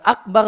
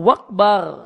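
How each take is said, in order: First: The word starts with a glottal stop. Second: The word starts with a w sound. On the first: The speaker calls it right. "Bukan Akbar" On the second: The speaker calls it wrong. "hamzahnya itu diubah menjadi wawu"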